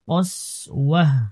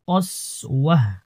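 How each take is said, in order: No difference in how they are said.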